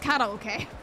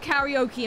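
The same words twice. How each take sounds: First: It is pronounced with Japanese-style sounds. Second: It is pronounced with English-style sounds. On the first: The speaker calls it right. "It's karaoke" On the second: The speaker calls it wrong. "pronounce it wrong"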